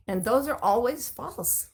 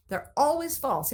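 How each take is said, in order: First: "those" leaned on, said slowly; stress on those. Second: "always" lifted high and firm; stress on always. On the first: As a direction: press the word "those", slow and firm. Stressing which stories are false. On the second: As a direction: hit "always", then fall on "false". Repeating with new emphasis. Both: Shown as a demonstration.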